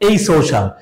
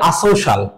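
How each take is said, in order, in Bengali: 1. প্রথম দলটির উচ্চারণ 'ay'। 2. প্রথম দলটির উচ্চারণ 'ah'। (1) "এটা সঠিক উচ্চারণ হবে এই সোশ্যাল" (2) "অনেকে এটাকে বলে আসোশাল"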